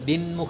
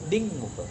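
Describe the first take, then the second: First: The nasal is an n sound. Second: The nasal is an ng sound. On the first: The speaker calls it wrong. "દિનમુખ પણ નહીં" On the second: The speaker calls it right. "કંઠમાંથી બોલ"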